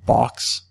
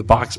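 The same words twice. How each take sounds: First: "box" said as "bawx"; shifted vowel in "box". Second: Said in the usual way. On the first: Shown as a demonstration. Demonstrating a regional vowel shift, "box" as "bawx". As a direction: round the O in "box" toward "aw". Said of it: "the box becomes". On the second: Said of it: "short O, as in box".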